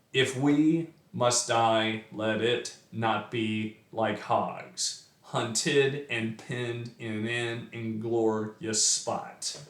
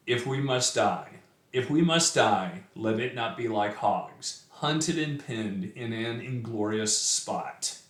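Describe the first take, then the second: First: Slow, heavy da-DA beat on every iamb in "if we must die"; robotic metered reading, stressing "must", "die", "hogs"; sing-song meter. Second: Measured, solemn reading of the verse; a gentle recital voice; poem reading. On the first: Shown as a demonstration. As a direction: thump out the iambic meter deliberately. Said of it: "it sounds awful if you try actually reading it that way". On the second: Acted. Reads the poem aloud.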